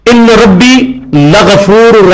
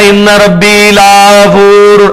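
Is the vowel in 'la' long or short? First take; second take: short; long. First: The vowel in 'la' is short. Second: The vowel in 'la' is drawn out long. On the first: The Lord is surely forgiving. The speaker calls it right. "लाम जबर ला का मतलब होता है जरूर" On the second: The Lord is not forgiving. The speaker calls it wrong. "अब ला पढ़ दिया तो मतलब है नहीं"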